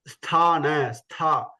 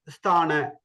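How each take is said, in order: First: "Sthana" with a strong puff of air on th; aspirated tha. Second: "Sthana" with no puff of air, like stana; very flat. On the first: Teacher demonstrating Mahaprana, aspirated th in "Sthana". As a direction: push air out on the "Stha" of "Sthana". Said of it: "we have to give effort". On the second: Teacher imitating people's mistake, unaspirated "Sthana". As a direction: drop the aspiration in "Sthana". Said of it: "make it very flat". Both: Shown as a demonstration.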